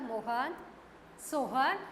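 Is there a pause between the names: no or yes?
yes. There is a short pause after each name. The speaker calls it right. "इस तरीके से बोलने"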